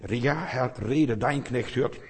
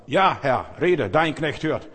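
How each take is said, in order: First: Calm consent. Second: Loud, slow and earnest reply; the boy Samuel answers the voice, loud and earnest; fervent answer. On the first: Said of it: "wir müssen zustimmen". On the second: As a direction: answer God's call boldly. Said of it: "Und sagt". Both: Acted.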